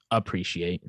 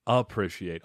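First: "appreciate" with a long ee, "a-PREE-shee-ate"; Chicago pronunciation. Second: "Appreciate" with short i, as "a-PRISH-iate"; mispronounced. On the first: Co-host showing how Chicago people say it, Chicago pronunciation. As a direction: say "appreciate" with "pree", not "prish". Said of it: "we really have a hard A". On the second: Host trying to copy the co-host, mispronounced. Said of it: "I was messing up on the appreciate". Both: Shown as a demonstration.

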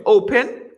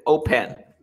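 First: "Open" stressed on the O, high and loud; stress on first syllable. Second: "open" with the weight moved to -PEN; stress on last syllable. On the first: Teacher asking how it is pronounced, "Open" stressed up front. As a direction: punch the O of "Open". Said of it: "La fuerza de voz está al inicio". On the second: Teacher offering the other option, "open" stressed at the end. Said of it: "¿Cómo se pronuncia?". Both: Shown as a demonstration.

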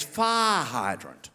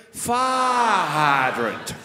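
First: "Fire hydrant" very slowly, the long I sound stretched out and the final T hit. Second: "fire hydrant" extremely slowly, the I sound stretched as long as possible. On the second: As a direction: hold the I in "fire hydrant" for as long as you can. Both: Shown as a demonstration. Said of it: "stretch out the I sound".

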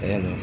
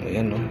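The two takes are said the same way.

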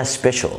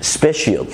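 First: "سبيشال" as SPE-shul, two syllables; "سبيشال" with no y after sh; correct pronunciation. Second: "سبيشال" as spe-shee-yal; mispronounced "سبيشال" ending in shi-yal; wrong pronunciation. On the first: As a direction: say "سبيشال" ending in a short shul. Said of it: "في حاجة اسمها". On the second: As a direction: say "سبيشال" with an extra y glide. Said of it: "مفيش حاجة اسمها". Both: Shown as a demonstration.

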